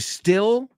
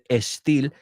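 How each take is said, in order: First: The word starts directly with the s sound. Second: An extra e sound comes before the s. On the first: The speaker calls it right. "unimos la S con el U" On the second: The speaker calls it wrong. "en vez de estil"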